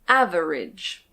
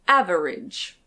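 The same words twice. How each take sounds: Both takes have the same delivery.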